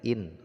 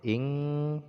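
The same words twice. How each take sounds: First: The n is pronounced clearly and fully. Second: The n is blurred into a nasal hum. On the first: The speaker calls it wrong. "bukan lagi in" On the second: The speaker calls it right. "nun sukunnya terdengar samar-samar ya"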